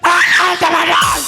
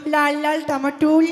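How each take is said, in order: First: It is said very loudly. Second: It is said at medium volume.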